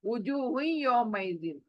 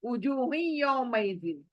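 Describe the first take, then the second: Both takes have the same delivery.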